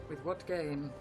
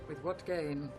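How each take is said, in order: The two takes are said the same way.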